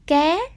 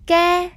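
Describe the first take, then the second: First: The word is said with a rising tone. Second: The word is said with a level tone.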